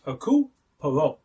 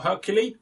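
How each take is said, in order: First: Hercule Poirot in a French accent, "air-cool pwah-roh"; French pronunciation. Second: Hercule said like the English Hercules, the hero who fights lions; wrong English reading. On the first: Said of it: "I do the accent when I say it". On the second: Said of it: "It's not Hercule". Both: Shown as a demonstration.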